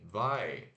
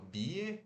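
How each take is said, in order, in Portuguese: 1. Ela é dita como uma só sílaba, rimando com 'eye'. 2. Ela é lida letra por letra, como duas sílabas. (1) "Mas se pronuncia bye, B A I fechado" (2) "se escreve B Y E, tipo bie"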